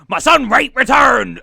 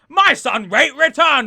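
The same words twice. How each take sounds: First: It is spoken in a put-on pirate voice. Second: It is spoken in a non-pirate character voice. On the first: The speaker calls it wrong. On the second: The speaker calls it right.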